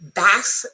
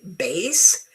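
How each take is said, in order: First: The vowel is a short A, like mass. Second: The vowel is a long A, like base. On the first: It refers to the fish. "the fish is a short A sound" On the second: It refers to low-pitched music. "The musical term is a long A sound"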